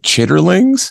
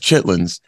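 First: It has three syllables, including the middle 'ter'. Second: It has two syllables, with the middle 'ter' dropped. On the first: It is read the way it is spelled. "I saw that written out one time ... and I was like chitterlings" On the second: It is the everyday spoken form. "someone told me as chitlins"

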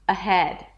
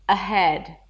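Both takes have the same delivery.

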